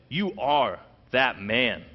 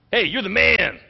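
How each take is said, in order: First: "You are that man" slow and heavy, each word weighed; grave accusation. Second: "Hey, you're the man" said higher and louder like a hyped compliment; casual praise. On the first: Preacher giving Nathan's real meaning to David, slow and grave. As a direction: lay it down slowly as a charge. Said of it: "No, he meant". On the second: Preacher showing the wrong reading of Nathan's words, upbeat hype. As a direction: toss off "you're the man" as cheerful slang. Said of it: "He didn't mean it like". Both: Shown as a demonstration.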